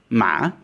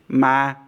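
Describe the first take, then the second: First: The pitch dips and rises like a question. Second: The pitch stays flat and level throughout. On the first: It means a grave. "this is the questioning tone" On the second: It means ghost. "As a flat board tone"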